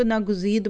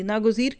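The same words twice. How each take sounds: First: "नागुज़ीद" ending in d instead of r; "नागुज़ीद", the final r misread as d; common misreading. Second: Said in the usual way. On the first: Shown as a demonstration. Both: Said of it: "कई लोग इसको नागुज़ीद पढ़ते हैं".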